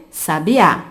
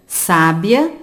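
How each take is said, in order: First: Sabiá with the final á stressed: sa-bi-Á; teacher showing the stress of sabiá; stress on the last syllable. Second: Sábia with the first syllable stressed: SÁ-bia; teacher showing the stress of sábia. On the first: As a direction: land hard on the final á of sabiá. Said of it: "Sabiá apresenta a última sílaba tônica". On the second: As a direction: lean on the opening sá of sábia. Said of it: "apresentam a penúltima sílaba tônica". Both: Shown as a demonstration.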